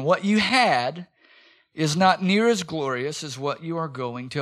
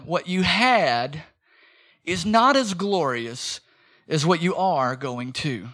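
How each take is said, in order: First: Slow emphatic repeat. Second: Slow emphatic. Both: Shown as a demonstration. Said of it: "Let me say it again".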